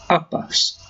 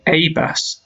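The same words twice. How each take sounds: First: The article is a short schwa sound. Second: The article has a full vowel sound. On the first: "a lot of the time we will say" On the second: "You could say"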